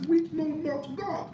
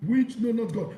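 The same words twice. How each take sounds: First: "Which know not God" said high and slow, rising on "Which"; slow, emphatic reading. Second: Said in the usual way. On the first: Shown as a demonstration. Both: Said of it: "and it says".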